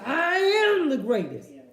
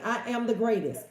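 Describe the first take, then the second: First: It is said forcefully with high energy. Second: It is said calmly with little energy. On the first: The speaker is fully committed to the claim. "he went, you know, he went in, honey" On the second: It is just a plain statement. "he didn't just say, I am the greatest. ... He didn't say it like that"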